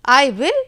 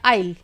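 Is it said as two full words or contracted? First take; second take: two words; contracted. First: It is said as two full separate words. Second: It is squeezed into one short contracted syllable. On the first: "मैंने इसको pronounce किया आई विल" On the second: "contraction use करके आइल इसको हम बोल सकते हैं"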